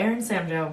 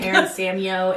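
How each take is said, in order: First: The name ends with a 'joe' sound. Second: The name ends with a 'yo' sound. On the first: The speaker calls it right. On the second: The speaker calls it wrong.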